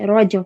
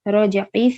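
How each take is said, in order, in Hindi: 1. शब्द अचानक खत्म हो जाता है, उसके अंत में कोई स्वर नहीं होता। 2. शब्द में व्यंजन के बाद एक छोटा स्वर आता है।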